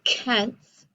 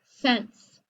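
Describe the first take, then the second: First: The word begins with a hard K sound. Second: The word begins with a soft S sound. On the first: The speaker calls it wrong. "I don't say kents" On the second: The speaker calls it right. "I say cents"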